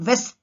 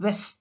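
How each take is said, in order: First: "west" begun with V, as vest; "west" with a clear, louder V onset; V sound. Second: "west" begun with a rounded W; "west" with no teeth on the lip; W sound. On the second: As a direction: lips forward to start "west". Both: Shown as a demonstration. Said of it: "sound also differs".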